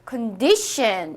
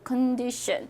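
First: The stress is on the middle syllable. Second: The stress is on the first syllable. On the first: The speaker calls it right. "여기서는 가운데 여기 뒤에 붙기 때문에 condition 이렇게 D를 강세를" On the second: The speaker calls it wrong. "만약에 컨디션 그 광고라면 앞에 컨에 붙겠죠"

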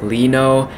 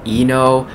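First: The name begins with an L sound. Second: The name begins with a vowel sound. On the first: The speaker calls it right. "I know now it's pronounced Lino" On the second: The speaker calls it wrong. "I've been saying Eno"

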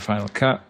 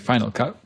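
First: It is said without an American accent. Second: It is said with an American accent.

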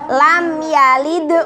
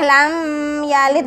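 First: The m sound is pronounced clearly and distinctly. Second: The m sound is blurred into the following sound. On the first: The speaker calls it right. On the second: The speaker calls it wrong. "Gak boleh lam yalid, gak boleh seperti itu"

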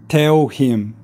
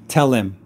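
First: The L is not carried into the next word. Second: The L links forward, sounding like tell Lim. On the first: "Chinese speakers would say tell him" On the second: "you want to link that together, and you need the L to say Lim"

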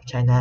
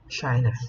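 First: The word is said with a Vietnamese accent. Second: The word is said with an English pronunciation. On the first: The speaker calls it wrong. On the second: The speaker calls it right.

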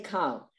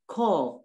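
First: The vowel is an open 'ah' sound. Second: The vowel is a rounded 'oh' sound. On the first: The speaker calls it wrong. "You don't say kal" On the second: The speaker calls it right. "So we say call"

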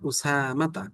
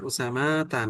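First: The vowel after the s is drawn out. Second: The vowel after the s is short. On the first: The speaker calls it right. "সিনে টান আছে" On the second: The speaker calls it wrong. "উসামা তা না"

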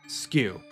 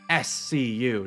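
First: It is said as one single-syllable word. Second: It is said as three separate letter names. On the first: "not skew" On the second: "the way you pronounce that, I assume, is S-C-U"

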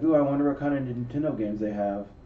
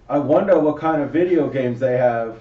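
First: It is said in his normal adult voice. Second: It is said in a put-on child's voice.

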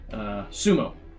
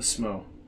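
First: The vowel after the s is pronounced. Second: The vowel after the s is dropped. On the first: "for those of you who are not in Japan" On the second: "So that's why I'm saying it like that"

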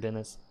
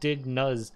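First: The name is said like the name Dennis. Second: The name is said as two syllables, dig-nuz. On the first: The speaker calls it right. "And it seems like Dennis" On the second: The speaker calls it wrong. "because I would have said Dig Nuz"

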